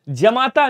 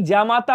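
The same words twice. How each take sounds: First: जमाता with short first a; wrong short vowel. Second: जामाता with long first aa; correct long vowel. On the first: Teacher showing students the error, short start on जमाता. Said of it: "नहीं". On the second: Teacher correcting students, long start on जामाता. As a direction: stretch "jaa" in जामाता. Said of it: "होता है". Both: Shown as a demonstration.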